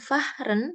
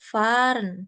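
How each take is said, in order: First: The h is sounded after the vowel. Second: The h is silent and the vowel long. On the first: The speaker calls it wrong. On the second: The speaker calls it right. "dibaca panjang... hanya hilang"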